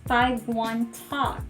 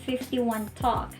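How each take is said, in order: First: The number is read as five one. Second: The number is read as fifty-one. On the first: The speaker calls it right. "That is five one Talk" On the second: The speaker calls it wrong. "We don't say fifty-one Talk"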